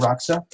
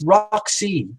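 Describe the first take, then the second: First: The name ends in an 'ah' sound. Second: The name ends in an 'ee' sound. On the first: The speaker calls it wrong. "I said it wrong" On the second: The speaker calls it right. "It's Roxy"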